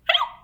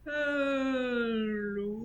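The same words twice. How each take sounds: First: It is said quickly. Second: It is said slowly.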